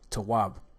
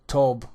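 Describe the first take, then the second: First: The word has two syllables. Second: The word is one short syllable. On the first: The speaker calls it right. "The correct pronunciation is tawab" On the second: The speaker calls it wrong. "This is the incorrect pronunciation"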